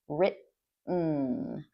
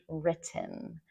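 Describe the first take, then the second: First: The middle t is reduced in casual speech. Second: The middle t is pronounced carefully and fully. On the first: This is how native North American speakers say it. "real native speakers, at least for American and Canadian English, we say written" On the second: This is the form commonly taught to learners. "probably you learned written"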